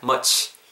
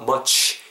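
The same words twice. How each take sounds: First: The ch is said relaxed without pushed lips. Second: The lips are pushed forward on the ch. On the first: The speaker calls it right. "자연스럽게 그냥 much 이렇게" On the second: The speaker calls it wrong. "ch 굳이 입술 이렇게 하지 마시고"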